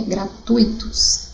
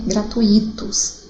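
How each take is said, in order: First: Slow "gratuitos", gra-TUI-tos; stress on TUI in "gratuitos". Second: "gratuitos" as gra-tu-I-tos, the I set apart; stress on I in "gratuitos". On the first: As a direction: stretch TUI in "gratuitos" as one strong syllable. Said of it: "é gratuitos". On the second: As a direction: punch the I in "gratuitos" as its own syllable. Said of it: "Coloca a sílaba tônica aí no i". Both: Shown as a demonstration.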